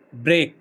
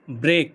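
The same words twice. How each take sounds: The two takes are said the same way.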